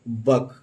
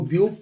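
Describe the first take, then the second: First: The vowel is said as 'uh'. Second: The vowel is said as 'yoo'. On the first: The speaker calls it right. "यहाँ यू को pronounce नहीं करेंगे" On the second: The speaker calls it wrong. "हम इसको ब्यूक पढ़ेंगे, लेकिन नहीं"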